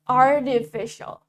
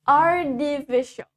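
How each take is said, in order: First: The t sounds like a d. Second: The same.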